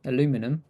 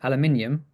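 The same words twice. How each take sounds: First: Aluminum said "a-LOO-mi-num"; American four-syllable aluminum; American pronunciation. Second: Aluminium said "al-you-MIN-ee-um"; British five-syllable aluminium; British pronunciation. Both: Shown as a demonstration. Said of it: "I'm not saying".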